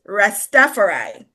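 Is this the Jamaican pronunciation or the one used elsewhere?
elsewhere. The name is said the way used elsewhere. This is how it is said outside its origin. "when you go elsewhere, it's Rastafari"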